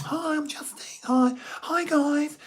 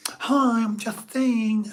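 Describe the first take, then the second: First: Very high falsetto lisp, slowed; put-on squeaky-high Justine greeting; another octave up. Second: High, lisping mock-camp greeting; loud put-on Justine, lisped and drawn out. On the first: Shown as a demonstration. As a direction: lisp it an octave above your own voice. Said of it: "another octave". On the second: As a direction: lisp it high and slow as a performed alter ego. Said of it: "start changing my voice".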